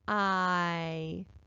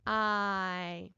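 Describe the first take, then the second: First: It is sounded out slowly. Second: It is sounded out faster. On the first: "Let's sound it out slowly at first" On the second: "Sound it out again, a little faster"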